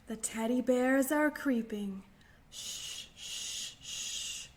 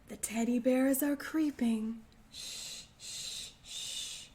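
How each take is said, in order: No difference in how they are said.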